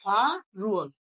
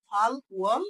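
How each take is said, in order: First: ফা রুয়াল with the L moved over as R; linked pronunciation. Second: ফাল ওয়াল as two separate words; broken-up pronunciation. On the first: Teacher shows the joined reading, ফা রুয়াল with R. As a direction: leave ফা open and begin রুয়াল on R. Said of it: "একসাথে উচ্চারণ করলে কি হয়?". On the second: Teacher shows the broken reading, ফাল ওয়াল kept apart. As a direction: close ফাল on L, then start ওয়াল afresh. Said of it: "এমনিতে ভাঙা উচ্চারণ করলে হয়". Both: Shown as a demonstration.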